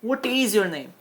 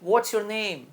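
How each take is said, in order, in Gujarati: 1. what અને is અલગ-અલગ બોલાય છે. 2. what અને is એક જ ઉચ્ચારણમાં જોડાઈ જાય છે. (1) "what is એટલે what is" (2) "in short શું બોલાય છે"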